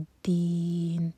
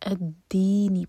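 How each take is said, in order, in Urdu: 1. یہ لفظ شروع میں ہمزہ کے بغیر، پچھلے لفظ سے روانی کے ساتھ جُڑ جاتا ہے۔ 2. یہ لفظ ہمزہ اور سُر کے ساتھ شروع ہوتا ہے۔ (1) "پیچھے سے ملا کر پڑھیں گے تو حمزۃ الوصل پروناؤنس نہیں ہوگا" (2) "اگر اس کو الگ سے پڑھیں گے تو الدینی پڑھا جائے گا. فتح لگا کر پڑھیں گے"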